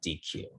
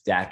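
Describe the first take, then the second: First: The word is said as two separate syllables. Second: The word is said as a single syllable. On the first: The speaker calls it wrong. "and not D Q" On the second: The speaker calls it right. "it's usually pronounced as DEQ"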